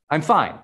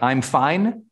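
First: Fine said quickly with a falling close; settled fine. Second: Slow rising I'm fine, the fine lifted like a question. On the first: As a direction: let fine drop and land. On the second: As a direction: drag out fine and let it rise. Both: Shown as a demonstration. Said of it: "the acronym of fine".

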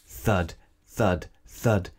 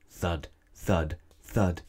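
Both takes have the same delivery.

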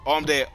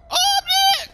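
First: Said in the usual way. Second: "Oh, I'm dead!" in a high squeal; hammed-up falsetto cry of defeat; squeaky high mock wail. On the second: Gamer squeals at his own in-game death. Repeated line, pitched way up.

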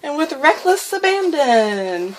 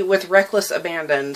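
First: High, drawn-out words through exertion; strained with effort. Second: Said in the usual way. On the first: Real, not acted. Vlogger scribbling wildly until the page rips, straining. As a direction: stretch it out while pushing really hard. Repeats instruction while scribbling hard.

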